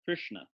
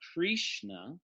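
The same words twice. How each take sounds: First: The r itself forms an in-between vowel. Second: A clear 'i' vowel follows the r. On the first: The speaker calls it right. "it's in between all three" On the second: The speaker calls it wrong. "it's not Krishna with an I"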